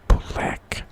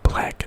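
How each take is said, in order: First: The B sound is tense and forceful. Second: The B sound is soft and lax. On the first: The speaker calls it right. "put some tension on the B" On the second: The speaker calls it wrong.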